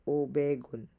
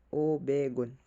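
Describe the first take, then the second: No difference in how they are said.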